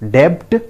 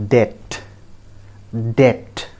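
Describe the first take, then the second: First: "Debt" said with the b sounded, DEBPT; wrong debt. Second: "debt" said DET, b silent; correct debt. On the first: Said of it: "No, friends. B is silent here". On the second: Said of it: "it is pronounced as". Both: Shown as a demonstration.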